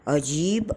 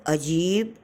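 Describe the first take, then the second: No difference in how they are said.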